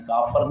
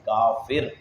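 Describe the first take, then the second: First: The second vowel is an 'a' sound. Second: The second vowel is an 'i' sound. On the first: The speaker calls it wrong. "काफर नहीं कहना" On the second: The speaker calls it right. "फा के नीचे जेर"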